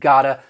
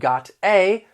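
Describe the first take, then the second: First: The two words are blended into one word. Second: The two words are said separately and clearly. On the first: "I just said gotta" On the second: "Instead of got a"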